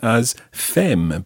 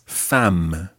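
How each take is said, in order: First: It is read the way the spelling suggests. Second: It is said with natural French pronunciation. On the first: The speaker calls it wrong. "you'd almost pronounce that, if you just looked at it, as femme" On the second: The speaker calls it right. "but it's femme"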